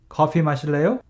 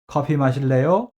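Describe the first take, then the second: Both takes have the same delivery.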